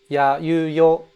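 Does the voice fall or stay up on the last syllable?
stays up. The pitch stays up on the last syllable. The speaker calls it right. "which would be ya, you, yo"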